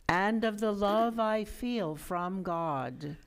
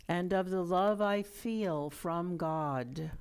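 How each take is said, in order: Both takes have the same delivery.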